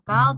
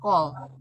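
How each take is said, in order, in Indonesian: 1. Vokalnya adalah bunyi 'ah' yang terbuka. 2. Vokalnya adalah bunyi 'oh' yang membulat. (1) "ini dibacanya jangan kal" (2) "tetapi kol"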